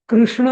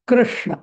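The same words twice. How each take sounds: First: The first syllable is said lightly, without weight. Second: The first syllable is said with strong stress. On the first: The speaker calls it wrong. "असं हलकं नाही म्हणायचं" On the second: The speaker calls it right. "कृष असं म्हणायचं"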